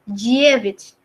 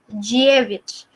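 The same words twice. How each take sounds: Both takes have the same delivery.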